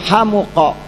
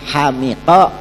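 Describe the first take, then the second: First: The vowel after the m is u. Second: The vowel after the m is i. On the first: "dibaca dhammah mimnya" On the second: "maka madinya itu adalah kasroh mimnya"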